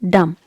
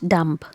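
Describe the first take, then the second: First: No B sound is heard at the end. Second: A B sound is heard at the end. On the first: The speaker calls it right. "in dumb letter B is silent" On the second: The speaker calls it wrong. "not dumb"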